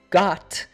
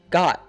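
First: The final T is fully released. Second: The final T is cut off in the throat. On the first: The speaker calls it wrong. "instead of saying got" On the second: The speaker calls it right. "we say it like got"

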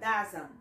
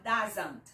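First: The final T is dropped. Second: The final T is pronounced heavily. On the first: The speaker calls it right. "você vai falar ... Tira o T" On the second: The speaker calls it wrong. "Você não vai falar"

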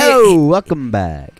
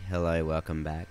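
First: It is said dynamically, with lots of energy. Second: It is said flatly, with little energy.

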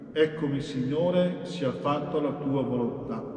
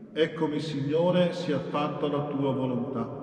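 The two takes are said the same way.

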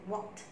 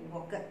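First: The word is said as one syllable. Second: The ending is said as a separate syllable. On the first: The speaker calls it right. "The past tense is walked" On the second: The speaker calls it wrong. "Don't read walked"

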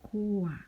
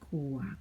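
First: The word is said with a falling tone. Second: The word is said with a low tone. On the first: "โท" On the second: "เอก"

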